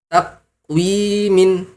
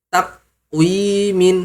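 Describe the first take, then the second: No difference in how they are said.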